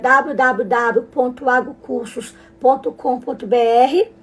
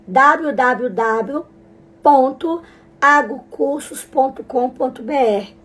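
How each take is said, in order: First: The address is read at a normal, quicker pace. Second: The address is read at a slower pace.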